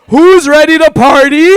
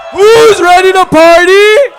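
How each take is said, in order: First: Rowdy party animal. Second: Higher, louder hype yell; rowdy party animal. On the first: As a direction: hype man shout. Hyping crowd to party. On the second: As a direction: scream it to the crowd. Repeats hype, bigger. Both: Acted.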